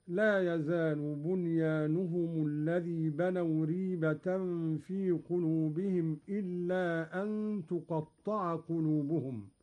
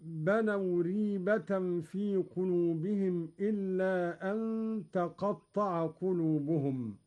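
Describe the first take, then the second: First: تقطع with ta damma, tuqatta'a; Qalun reading تقطع. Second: تقطع with ta fatha, taqatta'a; reading with تقطع. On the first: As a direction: round the ta of تقطع. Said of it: "بضم التاء هكذا". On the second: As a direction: recite تقطع with an open ta. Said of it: "قرأ قالون بضم التاء". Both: Shown as a demonstration.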